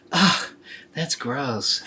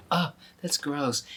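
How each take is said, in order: First: Disgusted. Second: Softer disgusted inner thought. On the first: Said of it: "She didn't say anything out loud". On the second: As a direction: think it, don't say it aloud. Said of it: "but inside she's going". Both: Acted.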